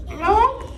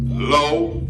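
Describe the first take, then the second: First: Very high squeaky parrot voice; parrot echo. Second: Said in the usual way. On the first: Acted. Parrot puppet repeating syllables after its teacher, high squeak. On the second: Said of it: "break it up in syllables".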